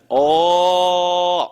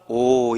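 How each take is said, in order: First: The vowel is an open 'aw' with wide mouth. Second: The vowel is a small, rounded 'o' sound. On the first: This is the English way of saying it. "입은 크게 벌리면서 오를 소리 내는 거야" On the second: This is the Korean way of saying it. "우리 한국말은 오 이러잖아"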